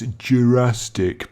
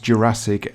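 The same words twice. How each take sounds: First: The word is pronounced in a distorted way. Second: The word is pronounced in the standard way. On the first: The speaker calls it wrong. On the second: The speaker calls it right.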